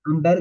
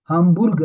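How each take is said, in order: First: The last syllable has an 'er' vowel, berg. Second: The last syllable has an 'oo' vowel, burg. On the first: The speaker calls it wrong. "हमबर्ग नहीं है" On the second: The speaker calls it right. "हामबुर्ग नाम है उसका"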